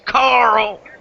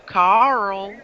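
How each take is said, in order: First: The name is said in a British accent. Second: The name is said in a Southern American accent. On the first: The speaker calls it wrong. "British people who've got stupid accents" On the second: The speaker calls it right. "if you're Southern, you go"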